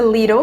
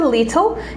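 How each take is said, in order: First: It is said with an American pronunciation. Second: It is said with a British pronunciation. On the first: "que é uma pronúncia americanizada" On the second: "que é uma pronúncia mais britânica"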